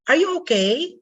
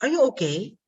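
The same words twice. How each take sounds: First: "Are you okay" high, rising at the end; high rising tune on "Are you okay"; question going up. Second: "Are you okay" falling at the end; yes-no question "Are you okay" with a downward tune; question going down. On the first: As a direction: lift "okay" well up as a yes-no question. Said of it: "They go up". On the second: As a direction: drop the tone on "okay" despite the question. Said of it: "they go down". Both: Shown as a demonstration.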